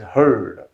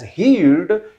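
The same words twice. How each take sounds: First: The vowel sounds like the one in 'her'. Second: The vowel sounds like the one in 'here'. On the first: The speaker calls it right. "it's pronounced as heard" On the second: The speaker calls it wrong. "the second form is not pronounced as heard"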